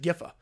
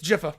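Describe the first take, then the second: First: The name begins with a hard G sound. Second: The name begins with a J sound. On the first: The speaker calls it wrong. "how you pronounce the word G I F, so I I said Giffa" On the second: The speaker calls it right. "they changed it to say like J I F"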